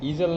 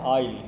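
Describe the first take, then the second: First: It is said with a z sound. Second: It is said with no z sound. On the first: The speaker calls it wrong. "इसको ईजल नहीं पढ़िएगा" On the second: The speaker calls it right. "इसको पढ़ते हैं आइल"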